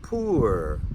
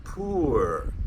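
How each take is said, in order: First: The vowel is an oo sound. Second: The same.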